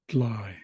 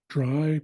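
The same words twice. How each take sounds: First: The word begins with a D followed by L. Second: The word begins with a D followed by R. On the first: "replacing the R with an L" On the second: "replacing the R with an L"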